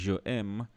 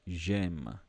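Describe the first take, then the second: First: The pronoun is a separate syllable before the verb. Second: The pronoun's vowel is dropped and joined to the verb. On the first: The speaker calls it wrong. "instead of saying je aime" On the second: The speaker calls it right. "they basically want you to say j'aime"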